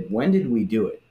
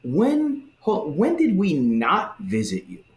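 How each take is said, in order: First: Sincere puzzlement. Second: High, slow, affronted protest; outraged self-righteous denial; indignant goats. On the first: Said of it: "that's the tone to read it in". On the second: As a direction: protest as if wrongly accused. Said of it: "they kinda say it like". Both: Retold or imitated.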